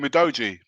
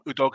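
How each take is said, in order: First: The middle consonant is a soft j sound. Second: The middle consonant is a hard g sound. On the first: "I call him Udoji" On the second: "it sounds really wrong, Udogi"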